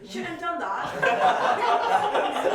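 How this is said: It is said in a British accent.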